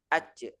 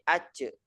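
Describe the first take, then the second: First: The middle consonant sounds like a ch. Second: The middle consonant sounds like a ch.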